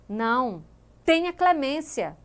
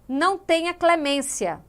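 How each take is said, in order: First: There is a pause after 'Não'. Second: It is said without a pause after 'Não'.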